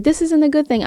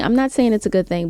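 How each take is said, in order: First: High, scolding mock tone; mock indignant quote. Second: Said in the usual way. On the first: Vlogger mocks online critics, high indignant tone. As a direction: parody of people spinning words. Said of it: "I know people like to spin words like".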